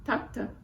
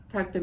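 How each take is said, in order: First: High, mildly choked "Takta" called out in grief; a touch of a sob on a high "Takta"; retold tearful cry. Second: Said in the usual way. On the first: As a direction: cry out "Takta" high and broken like a grieving widow. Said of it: "Grandma burst into tears". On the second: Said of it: "means "my love" in Yiddish".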